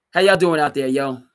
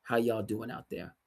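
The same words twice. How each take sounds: First: Loud, high "How y'all doing out there, yo"; hype greeting. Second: Said in the usual way. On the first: Shown as a demonstration. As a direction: shout it to the crowd with a yo. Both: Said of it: "I didn't need the yo".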